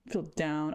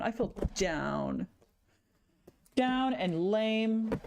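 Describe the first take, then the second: First: Said in the usual way. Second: Mopey slow lament. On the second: Real, not acted. Streamer mourning ruined sketches, slow mopey lament. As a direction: drag out "I feel down", slow and sinking.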